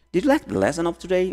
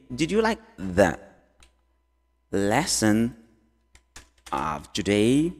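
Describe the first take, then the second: First: Said in the usual way. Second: Slow, long pauses around "lesson"; word by word. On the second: Shown as a demonstration. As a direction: stretch out "of today", rising at the end. Teacher breaks question up slowly. (devagar, com pausas longas entre as partes)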